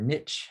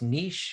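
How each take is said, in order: First: The word is said with an English pronunciation. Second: The word is said with a French pronunciation. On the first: "or the English version" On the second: "in the French"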